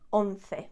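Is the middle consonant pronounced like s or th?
th. The middle consonant is a th sound. This is how it is said in central Spain. "I say once"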